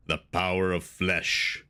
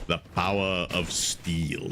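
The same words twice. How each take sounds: First: Low, slow Conan villain voice; slow, deep, deliberate villain line; James Earl Jones. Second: A low, slow booming movie-villain line; deep impression. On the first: Retold or imitated. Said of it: "James Earl Jones and Conan says". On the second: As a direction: growl it out slowly like a film villain. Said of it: "stop with the impressions".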